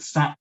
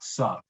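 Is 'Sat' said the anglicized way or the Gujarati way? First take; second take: anglicized; Gujarati. First: The syllable is said with an anglicized pronunciation. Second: The syllable is said with its Gujarati pronunciation. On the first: The speaker calls it wrong. "something even I've got wrong" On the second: The speaker calls it right. "is actually more like"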